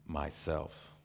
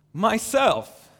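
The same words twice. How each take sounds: First: Understated deep, solemn voice; very deep, low. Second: High ringing joyful call. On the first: Unseen lion answers who he is, deep and low. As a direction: say it low and weighty, without volume. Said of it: "very deep and low so that the earth shook". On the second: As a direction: call it out loudly and gladly, pitched way up. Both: A narrator's reading.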